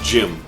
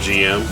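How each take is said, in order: First: It is said as a single one-syllable word. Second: It is spelled out as two separate letters. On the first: The speaker calls it right. "it's actually pronounced Jim" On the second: The speaker calls it wrong. "I know a lot of people pronounce the G M"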